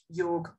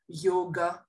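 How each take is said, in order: First: The word ends without the final vowel. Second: The word ends with a final a vowel. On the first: This is the modern form. "whereas you'd say" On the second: This is the traditional Sanskrit form. "in Sanskrit, you would say"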